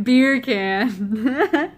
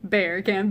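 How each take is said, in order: First: "Beer can" louder, like "bacon"; Jamaican accent. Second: "Bear can" with a dropped r, beer-like; British accent. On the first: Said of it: "bacon in Jamaican accent". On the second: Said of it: "in British accent". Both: Shown as a demonstration.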